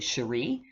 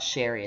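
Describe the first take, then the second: First: The name is said with a French pronunciation. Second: The name is said with an English pronunciation. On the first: The speaker calls it right. "it's actually Cherie, the French pronunciation" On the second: The speaker calls it wrong. "my name is not Sherry"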